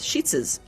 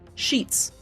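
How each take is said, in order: First: The word has an extra final syllable added. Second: The word is said as one syllable. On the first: "in certain states it's sheetses"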